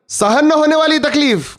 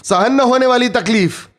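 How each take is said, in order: First: सहन न होने वाली तकलीफ said higher, with the weight on न and a falling end; first, raised take of सहन न होने वाली तकलीफ, stressing न; emphatic. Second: Said in the usual way. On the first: Shown as a demonstration. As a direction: lift the line and press on न. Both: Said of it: "repeated for emphasis".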